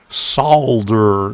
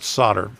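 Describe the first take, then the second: First: It is said with a British pronunciation. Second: It is said with an American pronunciation. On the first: This is how critics from the UK say it should be said. "the U K professors that tell me that uh, ... you know it's solder" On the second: This is how the speaker himself says it. "not solder"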